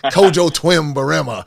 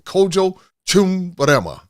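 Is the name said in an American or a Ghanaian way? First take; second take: American; Ghanaian. First: The name is said with an American pronunciation. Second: The name is said with a Ghanaian pronunciation. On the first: The speaker calls it wrong. "I used to say it all American style" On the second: The speaker calls it right. "I finally got it right"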